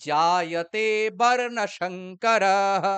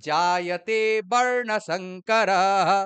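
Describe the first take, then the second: The two takes are said the same way.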